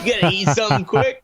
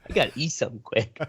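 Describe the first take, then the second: First: Mock disbelief. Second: Soft flat deadpan echo; deadpan repeat. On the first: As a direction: echo it back in disbelief. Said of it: "repeats line 79 mockingly". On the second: Retold or imitated. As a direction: mutter it back deadpan. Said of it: "repeats line 79 flatly".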